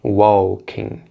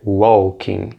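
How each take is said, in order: The two takes are said the same way.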